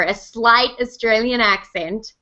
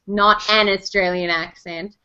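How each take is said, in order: First: SLIGHT picked out slowly; stress on SLIGHT. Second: AN set apart slowly and emphatically; stress on AN. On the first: Correcting naysayers about the accent brief, stress on SLIGHT. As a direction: lean deliberately on the word SLIGHT. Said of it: "good attention to that". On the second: Correcting naysayers about the accent brief, stress on AN. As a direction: lean on AN to mark the difference. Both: Shown as a demonstration.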